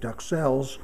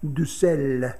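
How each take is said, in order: First: The X and final S are clearly pronounced. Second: The X and final S are left silent. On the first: This is how chefs in America say it. "pronouncing the S at the end and pronouncing the X" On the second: This is how it is said in France. "in France they say something like duxelles"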